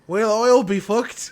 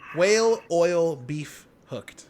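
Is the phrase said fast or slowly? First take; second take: fast; slowly. First: It is said fast, words running together. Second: It is said slowly and clearly.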